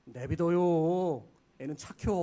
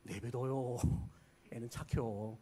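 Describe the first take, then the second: First: Slow, drawn-out Chungcheong elder voice; slow Chungcheong insult in disguise; Chungcheong dialect. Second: Lower, softer Chungcheong aside; hushed Chungcheong dialect; quieter Chungcheong repeat. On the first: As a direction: drawl it like a sly Chungcheong elder. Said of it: "충청도 어른들의 최고 심한 욕". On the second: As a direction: mutter it again like a sly elder. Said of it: "충청도 어른들의 최고 욕". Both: Retold or imitated.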